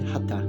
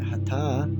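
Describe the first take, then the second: First: The first vowel is short. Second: The first vowel is slightly longer. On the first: It means forceful. "If it's said Hatha, it means forceful" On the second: It means sun and moon. "which is a slightly longer pronunciation on the air"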